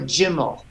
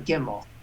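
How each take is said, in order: First: The word begins with a J sound. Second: The word begins with a hard G sound. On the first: The apostrophe has changed the letter's sound. "It's become a Gimel" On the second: This is the letter's normal sound. "instead of a Gimel"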